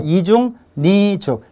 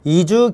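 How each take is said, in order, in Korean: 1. 뒷부분은 'ㄴ' 소리로 시작합니다. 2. 마지막 'ㄱ'이 뒷부분으로 이어집니다. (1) "니은 첨가를 했을 때" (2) "연음까지"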